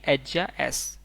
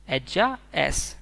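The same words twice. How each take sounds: First: Said in the usual way. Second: एज्जा एस stretched out slowly and clearly; slow model repeat. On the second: Shown as a demonstration. Teacher slowly modelling Spanish she is for students. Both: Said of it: "बोलेंगे".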